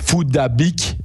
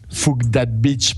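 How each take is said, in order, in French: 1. Ça ressemble à 'foo-dah-beek', sans mots anglais. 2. Ça ressemble aux mots anglais 'fuck that bitch'. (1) "ça devrait se prononcer Foudabik" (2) "c'est comme ça que nous on le prononce à l'européenne"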